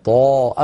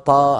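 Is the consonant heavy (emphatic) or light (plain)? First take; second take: heavy; light. First: The consonant is heavy, resonating against the palate. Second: The consonant is light, going straight out the mouth. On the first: The speaker calls it right. "طاء بضغط الصوت إلى قبة الحنك إلى سقف الحلق، لابد من ذلك" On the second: The speaker calls it wrong. "هذا الصوت خرج مباشرة إلى خارج الفم لم يذهب إلى قبة الحنك"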